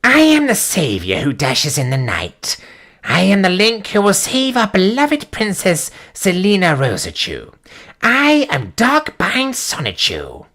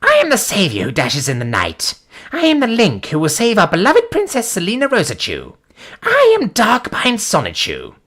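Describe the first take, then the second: First: Lightly voiced Zenshiki, higher and slower at the end; a hint of a proud anime hero. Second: Lightly voiced heroic Teemo, rising higher at the end; a hint of a cute champion, slowing on the name. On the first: Streamer reading the hero's boast as Zenshiki. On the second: Streamer reading a comic hero's boast in a light Teemo voice.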